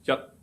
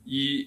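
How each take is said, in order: First: It is read with the Cantonese pronunciation. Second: It is read with the Mandarin pronunciation. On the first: Read this way it has an entering tone. "a entering tone word pronounced as yat" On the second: Read this way it seems to have a level tone. "If you read it in Mandarin"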